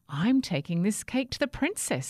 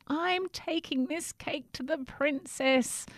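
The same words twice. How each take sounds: First: Said in the usual way. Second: High, slow pleading voice; pleading cry. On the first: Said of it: "said Jack". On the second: Acted. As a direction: beg to be let through. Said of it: "cried Jack".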